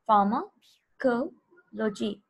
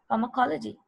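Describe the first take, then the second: First: The word is broken into separate chunks. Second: The word is said smoothly as one unit. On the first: "You will divide it into three parts" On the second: "but pronounce it as pharmacology"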